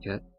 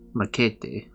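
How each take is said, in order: First: The name is said with English-style vowels. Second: The name is said with Spanish-style vowels. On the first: The speaker calls it right. "It's probably Maquette" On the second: The speaker calls it wrong. "there's no way in fuck that's Spanish"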